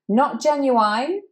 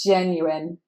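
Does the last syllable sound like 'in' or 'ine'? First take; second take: ine; in. First: The last syllable sounds like 'ine', rhyming with wine. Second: The last syllable sounds like a short 'in'. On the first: The speaker calls it wrong. "that's not how we read it" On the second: The speaker calls it right. "It's an I at the end"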